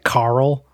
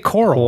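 First: The first vowel sounds like an 'a'. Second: The first vowel sounds like an 'o'. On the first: Someone else says it this way. "You say it with like an A" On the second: The speaker says it this way. "I say coral"

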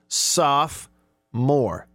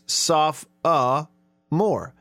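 First: The word is said with two syllables. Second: The word is said with three syllables. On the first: "the actual pronunciation that is given, if you look it up online, is two syllables" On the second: "If you pronounce all the O's"

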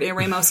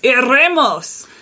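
First: The R is plain, without a roll. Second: The R is rolled, with a Spanish accent.

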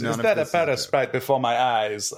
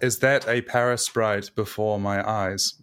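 First: It is said in a partly put-on character voice. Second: It is said in the speaker's plain natural voice. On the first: "not halfway doing a voice?" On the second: "No voice"

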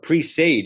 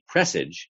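First: The second part sounds like the word 'sage'. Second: The second part does not sound like 'sage'. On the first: "pronounced it in such a way which actually telegraphs its meaning" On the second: "I think of the word as presage"

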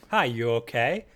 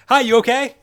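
First: It is said calmly, at normal volume. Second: It is said loudly, like all caps.

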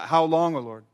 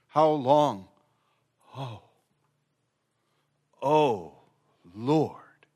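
First: The 'O' is rushed over quickly. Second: The 'O' is lingered on with pauses.

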